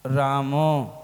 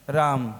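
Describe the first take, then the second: First: रामो with a clear final ओ, falling; रामो, sound the ओ fully; Prakrit form. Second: राम said short and low; just राम, no final vowel; plain Hindi form. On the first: Monk contrasting रामो with राम for the congregation. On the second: Monk contrasting राम with रामो for the congregation. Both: Shown as a demonstration. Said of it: "कौन सही है?".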